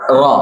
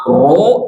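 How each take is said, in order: First: Ro with wide open vowel; open mouth. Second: Ro drawn to a rounded o; pouted lips. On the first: Teacher giving the correct reading, open-mouthed ro. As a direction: open fully on "ro". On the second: Teacher repeating the wrong reading, pouted ro. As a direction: push lips out on "ro". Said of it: "Sanes ro". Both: Shown as a demonstration.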